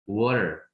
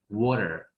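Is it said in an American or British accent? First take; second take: American; American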